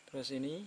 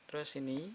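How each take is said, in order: The two takes are said the same way.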